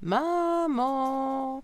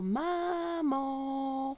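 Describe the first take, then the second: First: It is called a bit louder. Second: It is called softly.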